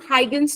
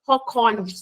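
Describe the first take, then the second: First: The name is said in an anglicized way. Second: The name is said with a Dutch accent. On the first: The speaker calls it wrong. "इनका एक्चुअल में नाम हाइगन्स नहीं है" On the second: The speaker calls it right. "अगर आप डच वाला थोड़ा सा फील के साथ बोलो"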